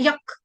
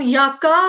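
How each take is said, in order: First: The word ends on a bare k sound. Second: The word ends with an added a vowel. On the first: The speaker calls it right. "हम क्या बोलते हैं" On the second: The speaker calls it wrong. "हम यका नहीं बोलते"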